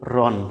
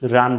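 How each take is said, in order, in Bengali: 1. স্বরধ্বনিটি হ্রস্ব, 'o' এর মতো, আলিফ নীরব। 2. স্বরধ্বনিটি টেনে দীর্ঘ উচ্চারিত হয়, 'aa' এর মতো। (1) "বলতে হবে রন" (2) "রান বলা যাবে না"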